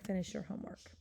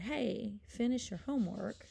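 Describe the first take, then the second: First: Said in the usual way. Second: Firm, slightly raised example command; an attention-getting mock command. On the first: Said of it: "I'm just gonna say". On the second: Shown as a demonstration. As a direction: call out a demonstration order to someone. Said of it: "make it into a command".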